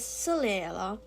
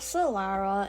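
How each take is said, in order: First: The name is said with an Italian pronunciation. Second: The name is said with an English pronunciation. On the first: The speaker calls it right. "it is Solera" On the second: The speaker calls it wrong. "not Solara in that English pronunciation"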